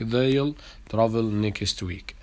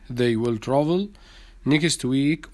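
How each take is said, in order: First: They will is shortened to one syllable, they'll. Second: They will is said as two full words.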